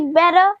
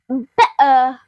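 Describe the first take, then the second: First: The middle t is said the American way. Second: The middle t is replaced by a glottal stop. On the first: "normally pronounced by the American people say better" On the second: "an even more British way of saying better ... this is what we call the glottal stop"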